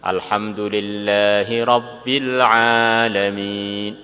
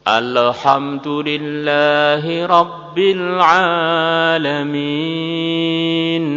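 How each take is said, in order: First: The final nasal is cut off abruptly. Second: The final nasal is stretched out too long. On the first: "Tep. Ya, ini termasuk salah" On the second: "kemudian nunnya molor"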